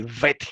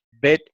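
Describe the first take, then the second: First: "Vet" with a buzzing v; soft v. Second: "Bet" with a stopped b; hard b. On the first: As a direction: say "Vet" with teeth on lip for the v. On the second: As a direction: say "Bet" with lips closed on the b. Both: Shown as a demonstration. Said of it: "no tenía dos formas como ahora".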